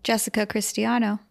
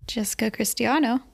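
First: The name is spoken clearly and distinctly. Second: The name is mumbled and unclear. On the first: The speaker calls it right. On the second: The speaker calls it wrong.

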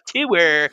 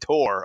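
First: The word rhymes with sewer. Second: The word does not rhyme with sewer. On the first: This is how locals in Iowa say it. The speaker calls it wrong. "not a tour, like a sewer" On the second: This is how the speaker says it. The speaker calls it right. "it's a fucking tour of the campus"

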